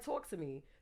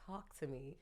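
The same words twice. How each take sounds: First: Talk has a strong Brooklyn vowel sound. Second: Talk has a neutral, standard vowel sound. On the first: This is how the speaker naturally talks. "I literally say talk. Anybody from Brooklyn say talk" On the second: The speaker code switches so others understand. "I gotta say"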